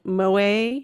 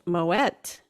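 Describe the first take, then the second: First: The name is said with a French pronunciation. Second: The name is said with a Dutch-style pronunciation. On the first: The speaker calls it wrong. "that's how you would pronounce it in French with a French, you know, pronunciation" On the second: The speaker calls it right. "it is pronounced Moet et Chandon because the original owner... Dutch origin"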